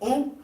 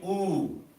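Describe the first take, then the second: First: The vowel is short and clipped. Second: The vowel is drawn out long. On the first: "instead of" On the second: "how do we say"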